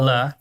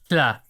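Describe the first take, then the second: First: A plain voiced L sound starts the syllable. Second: Air hisses around the tongue sides before the vowel. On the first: "the sound for the letter L" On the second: "force air around the sides of your tongue"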